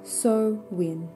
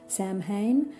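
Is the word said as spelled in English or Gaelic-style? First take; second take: Gaelic-style; as spelled. First: It is pronounced close to the Gaelic original. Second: It is pronounced the way English spelling suggests. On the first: The speaker calls it right. "closer with my Australian accent to the Irish or the Gaelic pronunciation" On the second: The speaker calls it wrong. "if you're pronouncing it as per how it's written in English"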